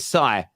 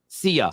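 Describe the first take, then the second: First: The name is said as one syllable, like 'sigh'. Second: The name is said as two syllables, 'see-uh'. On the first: The speaker calls it wrong. "S I together in England, we would say Sai" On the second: The speaker calls it right. "Tell me how to say it right"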